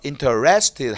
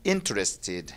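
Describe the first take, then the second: First: The stress falls on a later syllable. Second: The stress falls on the first syllable. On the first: The speaker calls it wrong. "interest자에 액션 두지 말고" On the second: The speaker calls it right. "인자에서"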